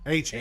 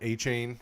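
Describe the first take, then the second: First: The last syllable sounds like 'chan'. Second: The last syllable sounds like 'chain'. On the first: The speaker calls it right. "that's what it is" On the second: The speaker calls it wrong. "I keep saying it wrong"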